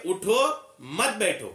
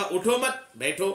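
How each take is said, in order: First: उठो alone, a beat, then मत बैठो together; pause after उठो. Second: उठो मत run together, slow, then बैठो apart; no pause after उठो. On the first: Teacher answering what you would say to someone, pause after उठो. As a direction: halt after "उठो" before the falling "मत बैठो". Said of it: "उठो में अगर आप थोड़ा रुकते". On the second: Teacher showing the reversed meaning, उठो मत said as one unit. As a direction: join "मत" onto "उठो", break before "बैठो". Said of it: "अगर आप थोड़ा रुकते नहीं है". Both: Shown as a demonstration.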